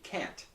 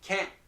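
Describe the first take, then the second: First: The final T is clearly released. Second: The final T is not released. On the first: "Here it's a clear T" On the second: "the tip of the tongue does not actually touch"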